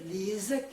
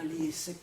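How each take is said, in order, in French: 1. La consonne du milieu est un son Z. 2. La consonne du milieu est un son S. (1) "c'est un Z" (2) "et non pas"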